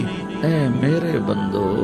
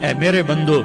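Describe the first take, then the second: First: It is said tenderly, with warmth. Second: It is said plainly, without warmth. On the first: The speaker calls it right. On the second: The speaker calls it wrong.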